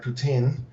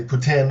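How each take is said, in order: First: Said in the usual way. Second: "poutine" said like Putin, the Russian president's surname; Canadian pronunciation. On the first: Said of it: "or as the Canadians would say". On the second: Shown as a demonstration. Food truck owner showing how Canadians say it, "poutine" sounding like Putin. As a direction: say "poutine" the Canadian way, as poo-TIN. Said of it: "as the Canadians would say, poutine, almost like, uh, the president of Russia".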